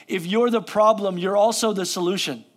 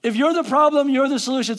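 First: Said in the usual way. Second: Higher and louder, punching "problem" and "solution"; emphatic repeat. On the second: Shown as a demonstration. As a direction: drive the line home to the congregation.

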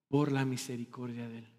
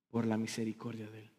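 First: "Por la misericordia de Él" repeated softly but a little fuller. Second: "Por la misericordia de Él" dropped to a hushed, much softer near-whisper. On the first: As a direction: say "Por la misericordia de Él" again, soft yet clearer. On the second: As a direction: pastor softly marvelling at "Por la misericordia de Él". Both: Acted. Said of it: "repeated line".

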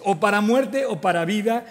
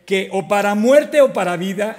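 First: Said in the usual way. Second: Louder, rising fervent vow on muerte; fervent oath. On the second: Acted. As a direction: swear it loud like a loyal soldier. Itai's oath of loyalty to king.

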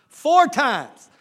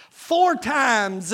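First: "Four" stressed and louder; emphatic. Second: Said in the usual way. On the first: Acted. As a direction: hammer "Four" home.

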